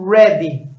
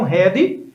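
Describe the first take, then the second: First: It begins with an English R sound. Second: It begins with a breathy H-like sound. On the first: The speaker calls it right. "na realidade ela usa um R que nós não temos na língua portuguesa" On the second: The speaker calls it wrong. "que muitos alunos pronunciam head"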